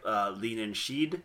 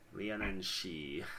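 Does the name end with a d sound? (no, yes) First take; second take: yes; no. First: The name ends with a d sound. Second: The name ends in a vowel, no d. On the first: The speaker calls it wrong. "I believe it is" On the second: The speaker calls it right. "It's Leonin She"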